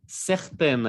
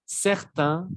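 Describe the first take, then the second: First: Certaines with an open è and a clear final n; feminine certaines. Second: Certains ending on the nasal vowel, no n sound; masculine certains. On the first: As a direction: sound the n at the end of certaines. (certaines con n final audible) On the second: (certains terminado en vocal nasal, sin n) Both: Shown as a demonstration. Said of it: "aquí hay una E, siento que se esconde ahí".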